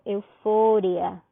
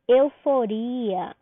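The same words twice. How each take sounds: First: Euforia stressed on FO, eu-FÓ-ria; slow euforia with the weight moved to FO; Spanish stress. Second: Euforia drawn out on RI, eu-fo-RI-a; Portuguese stress. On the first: Teacher showing what to say, euforia stressed on FO. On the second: Teacher contrasting languages for students, Euforia stressed on RI. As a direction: stretch the RI of Euforia slowly. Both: Shown as a demonstration. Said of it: "eu digo euforia".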